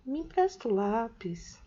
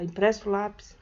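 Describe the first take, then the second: First: Me empresta o lápis, asked gently; polite request tone. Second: Empresta o lápis, as a firmer command; curt order tone. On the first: Teacher showing how tone changes a request, the polite way. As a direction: ask for the pencil nicely. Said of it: "dependendo do tom que eu fale". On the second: Teacher showing how tone changes a request, the commanding way. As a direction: demand the pencil. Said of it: "você vai perceber a diferença". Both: Shown as a demonstration.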